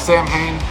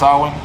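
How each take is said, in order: First: It is said the popular, common way. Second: It is said the traditional, original way. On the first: The speaker calls it wrong. "I know a lot of people pronounce it that way" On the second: The speaker calls it right. "It's correctly pronounced Samhain"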